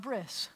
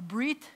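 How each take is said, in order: First: The word ends with an s sound. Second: The word ends with a t sound. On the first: This is the Yiddish form. "in Yiddish it's called a bris" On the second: "in Hebrew it's called either a brit milah"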